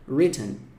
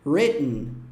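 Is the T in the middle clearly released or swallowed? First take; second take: released; swallowed. First: The middle T is clearly pronounced. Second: The middle T is swallowed in the throat. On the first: "pode fazer o T" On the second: "é engolido aqui"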